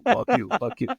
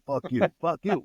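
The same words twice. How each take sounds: First: The same fuck you thrown much higher and louder, topping the other guy; mock shout. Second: Mock argument. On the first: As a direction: yell fuck you over him to win the fight. Shouting match peaks. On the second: Retold on-air shouting match.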